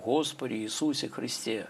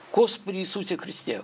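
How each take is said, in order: First: It is said at a plain, even pace. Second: It is said at a changed, strained pace. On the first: "не просто читать молитву" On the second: "какое изменение даже скорости? ... требуется напряжение всех сил"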